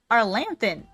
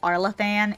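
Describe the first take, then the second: First: An N sound comes before the 'th'. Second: No N sound comes before the 'th'. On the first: The speaker calls it wrong. "I kept calling it Arlanthan" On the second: The speaker calls it right. "It's like Arlathan"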